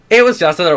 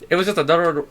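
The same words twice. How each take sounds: First: It is read in a put-on character voice. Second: It is read in the speaker's normal voice.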